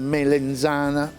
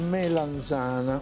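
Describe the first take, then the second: First: The second vowel sounds like e. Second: The second vowel sounds like a. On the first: The speaker calls it wrong. "Non si dice melenzana" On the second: The speaker calls it right. "Si dice melanzana"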